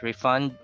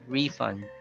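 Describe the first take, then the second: First: The stress is on the second syllable. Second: The stress is on the first syllable. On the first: The speaker calls it wrong. "it's not refund" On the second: The speaker calls it right. "but refund"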